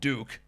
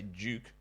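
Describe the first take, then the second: First: It is said in an American accent. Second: It is said in the speaker's own non-American accent.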